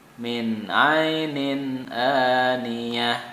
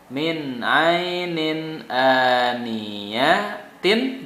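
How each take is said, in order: First: The last word ends with an h sound. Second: The last word ends with a t sound. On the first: Reading stops at the word. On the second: Reading continues past the word.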